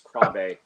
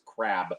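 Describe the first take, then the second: First: The name sounds different from the word 'crab'. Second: The name sounds just like the word 'crab'. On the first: The speaker calls it right. "the correct pronunciation is Krabe" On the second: The speaker calls it wrong. "I used to pronounce it crab"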